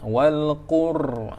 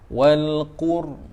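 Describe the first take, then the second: First: The r is rolled with a heavy trill. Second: The r is held with only a light trill. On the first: The speaker calls it wrong. "itu jadi getaran yang banyak" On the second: The speaker calls it right. "jangan getaran yang terlalu banyak"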